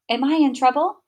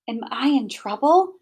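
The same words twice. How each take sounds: First: "in" stressed, higher, with a rise. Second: "trouble" stressed with a rising question. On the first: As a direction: hit the word "in", let the end rise. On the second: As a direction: lean on "trouble" and lift the end. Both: Shown as a demonstration.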